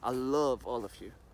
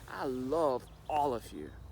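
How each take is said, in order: First: It is said in a disgusted tone. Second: It is said in a sincere, warm tone. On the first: The love is mixed with contempt. "I'm saying that with all disgust that I have also inside of me" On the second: The love is meant honestly. "with all complete honesty that I have for everyone"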